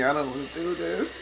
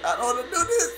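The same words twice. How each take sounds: First: Hushed nervous mutter; scared, pulse pounding, mumbling; heart racing. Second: Higher, panicky plea; nervous voice climbing up; heart racing. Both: Real, not acted. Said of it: "Oh, my heart is racing".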